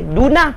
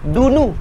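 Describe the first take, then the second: First: The word ends with an a vowel. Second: The word ends with an u vowel. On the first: The word acts as the object. "Baris atas. Maka waktu itu kita akan baca duna" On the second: The word acts as the subject. "maka dia baca baris depan lah"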